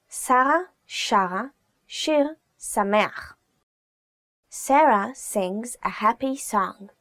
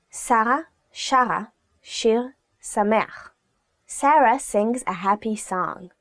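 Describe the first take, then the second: No difference in how they are said.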